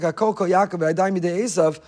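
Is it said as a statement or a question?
statement. It is said as a plain statement.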